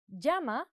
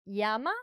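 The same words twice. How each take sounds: First: "llama" said "YAH-ma", with a y glide; double L as Y. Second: "llama" said "JAH-ma", with a hard j; double L as J. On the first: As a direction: open "llama" on the y of "yes". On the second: Teacher showing another regional sound, "llama" with a hard j. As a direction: open "llama" on the j of "jam". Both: Shown as a demonstration. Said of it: "might sound like llama or llama".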